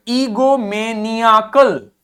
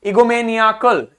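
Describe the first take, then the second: First: ईगोमेनियाकल slowly, syllable by syllable; slow breakdown of ईगोमेनियाकल; stress on निया. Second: ईगोमेनियाकल as one word, निया stressed; joined-up ईगोमेनियाकल with a strong निया. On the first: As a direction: draw out ईगोमेनियाकल, weight on निया. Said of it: "इस पे खूब सारा जोर देना है". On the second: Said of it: "इस पे हमें जोर देना है". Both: Shown as a demonstration.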